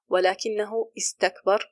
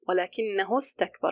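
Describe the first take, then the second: First: A glottal stop begins the second word. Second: The words link with no glottal stop. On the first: The speaker calls it wrong. "You don't say" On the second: The speaker calls it right. "You drop the hamza"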